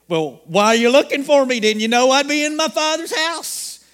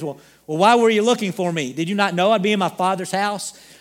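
First: It is said in a sarcastic tone. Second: It is said in a plain, sincere tone.

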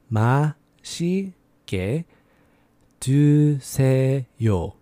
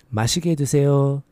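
First: It is said slowly. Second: It is said faster.

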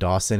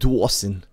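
First: The name is said in a plain accent. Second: The name is said in a Brooklyn-style accent. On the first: "Like my name" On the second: "It's like"

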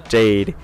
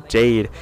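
The two takes are said the same way.

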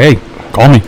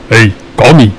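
First: It is said in a normal voice. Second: It is said in Wally's deep voice.

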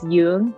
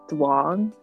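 First: The name begins with a Y sound. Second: The name begins with a D sound. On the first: The speaker calls it right. "the way you should pronounce it is Yung" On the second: The speaker calls it wrong. "people always pronounce it as like Duong"

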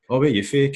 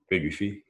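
First: It is asked in a friendly, casual tone. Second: It is asked in a hostile, challenging tone.

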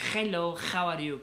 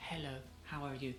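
First: It has a Spanish accent with a harsh H. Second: It has an English accent with a soft H.

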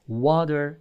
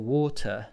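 First: It is said in an American English accent. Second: It is said in a British English accent. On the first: "American English, they say water" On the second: "But British say, for example, water"

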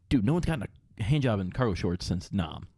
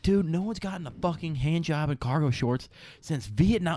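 First: It is said plainly, without much emphasis. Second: It is said with strong, emphatic energy.

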